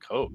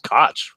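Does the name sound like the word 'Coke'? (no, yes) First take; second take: yes; no. First: The name is said like the word coke. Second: The name is said unlike the word coke. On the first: This is how people in Boston say the name. The speaker calls it wrong. "Jim Coke of Samuel Adams, I was like, Coke?" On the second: This is how the family says the name. The speaker calls it right. "I always pronounced it Koch"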